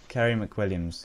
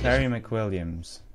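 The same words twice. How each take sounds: First: The name is said in a normal voice. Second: The name is said in a put-on accent.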